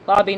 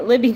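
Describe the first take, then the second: First: Lobby with an open o, as in lob; Lobby misread for the name; wrong name. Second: Libby with a short i, as in lip; fixing the name to Libby; corrected name. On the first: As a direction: say Lobby, rhyming with hobby, with a laugh before it. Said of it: "not Lobby". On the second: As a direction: say Libby, with the i of lip, after a laugh. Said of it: "it's Libby". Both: Shown as a demonstration.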